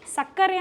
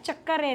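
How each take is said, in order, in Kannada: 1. ಈ ಪದ s ಶಬ್ದದಿಂದ ಶುರುವಾಗುತ್ತೆ. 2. ಈ ಪದ ch ಶಬ್ದದಿಂದ ಶುರುವಾಗುತ್ತೆ. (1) "ಬರವಣಿಗೆಯಲ್ಲಿ ಸಕ್ಕರೆ ಅಂತಲೇ ಬರೆದಿರ್ತಾರೆ" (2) "ಆದರೆ ಹೇಳಬೇಕಾದ್ರೆ ಚಕ್ಕರೆ ಅಂತ"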